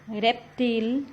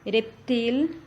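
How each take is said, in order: First: The stress is on the last syllable. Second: The same.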